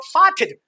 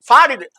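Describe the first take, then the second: First: The middle t is a clear hard t. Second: The middle t is a soft d-like flap.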